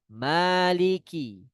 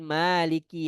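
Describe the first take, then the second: First: The k sound is released with a burst. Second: The k sound is released plainly. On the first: The speaker calls it right. "ada bunyi pecah di kaf" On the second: The speaker calls it wrong. "bukan dengan bacaan bahasa Indonesia"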